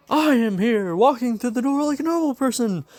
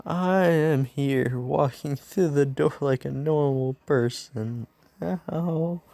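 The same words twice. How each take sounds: First: High, loud heroic proclamation; booming hero entrance. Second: Slow, drawn-out heroic announcement; subdued hero entrance. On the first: Hero bursts in on his class, high triumphant announcement. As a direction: announce yourself in a high, full-voiced hero cry. All Might bursts through the door. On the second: Injured hero retries his entrance, slow and dutiful proclamation. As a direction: stretch out the hero line, less forceful. All Might re-enters with bump on head. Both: Acted.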